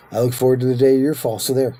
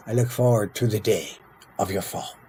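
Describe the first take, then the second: First: Fast, louder, higher parroting of a threat; hurried, petty comeback; quick mock retort. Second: Measured delivery, pausing before "of your fall"; unhurried, falling away at the end. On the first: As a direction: throw it back in a rush, louder. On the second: Acted. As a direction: draw out a solemn in-character threat. Reads rival leader's threat in role.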